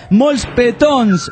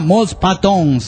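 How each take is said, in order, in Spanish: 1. La sílaba del medio tiene una vocal e. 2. La sílaba del medio tiene una vocal a. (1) "yo me he pasado diciendo Molspetons mucho tiempo" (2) "alguien me dijo, no, era Molspatons"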